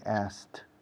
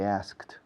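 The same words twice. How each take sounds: First: The K sound is dropped. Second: The K sound is clearly pronounced. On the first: "Salto la K" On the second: "I don't say asked"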